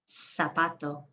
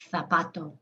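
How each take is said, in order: First: The first sound is a hissing s. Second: The first sound is a soft th. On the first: This is how it is said in Latin America. "Latin American way. ... Sounds just like the S" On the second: This is how it is said in Spain. "But if you're from Spain, you'll hear the difference"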